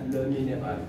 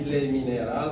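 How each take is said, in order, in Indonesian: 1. Vokal dalam 'le' memiliki bibir membulat. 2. Vokal dalam 'le' memiliki bibir melebar. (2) "jangan baca lagi"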